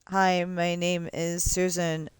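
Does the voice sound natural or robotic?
robotic. The voice sounds flat and robotic. This is how older computer voices sounded. The speaker calls it wrong. "before where it just kind of sounded like"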